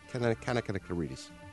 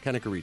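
First: The name is said with five syllables. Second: The name is said with four syllables. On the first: The speaker calls it wrong. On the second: The speaker calls it right.

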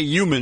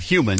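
First: The word starts without an h sound. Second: The word starts with a clear h sound. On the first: This is how a Philadelphia accent says it. "You say human" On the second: This is the standard way to say it. "instead of human"

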